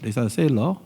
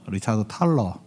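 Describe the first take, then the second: First: The surname begins with an s sound. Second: The surname begins with a t sound. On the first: This is the English pronunciation of the name. The speaker calls it right. "영어 발음으로는 탈러라가 아니죠. 세일러라고 있는데" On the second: This is how the translated book spells the name. The speaker calls it wrong. "책에는 탈러라고 돼 있다"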